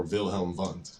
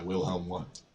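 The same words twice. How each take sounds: First: Wilhelm Wundt with German V sounds, "Vilhelm Vundt"; German pronunciation. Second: Said in the usual way. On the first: Shown as a demonstration. Lecturer corrects the founder's name for students, German pronunciation. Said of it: "proper German pronunciation".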